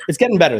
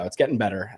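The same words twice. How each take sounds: First: Louder, insistent; emphatic. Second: Soft, trailing-off repeat; quiet. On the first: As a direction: push the words out firmly. Insists he is improving. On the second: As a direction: say it quietly to yourself. Repeats it to himself. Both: Real, not acted.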